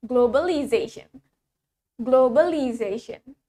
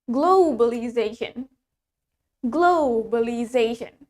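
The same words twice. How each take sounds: First: Globalization with a short "glo"; American-accented globalization; American pronunciation. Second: Globalization with a stretched "glo"; British pronunciation. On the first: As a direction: say "globalization" evenly, American style. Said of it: "Now, American". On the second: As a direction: lean long on the first syllable of "globalization". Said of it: "Let's start from the British". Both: Shown as a demonstration.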